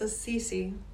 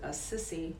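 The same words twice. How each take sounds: First: The name does not sound like 'a sissy'. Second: The name sounds like 'a sissy'. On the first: The speaker calls it right. "I think it's Assisi" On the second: The speaker calls it wrong. "I pronounced it Assisi"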